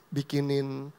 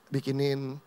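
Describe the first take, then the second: No difference in how they are said.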